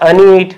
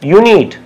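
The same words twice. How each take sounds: First: The word begins without a 'you' sound. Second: The word begins with a 'you' sound. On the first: The speaker calls it wrong. "not unit" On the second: The speaker calls it right. "We have to pronounce it as unit"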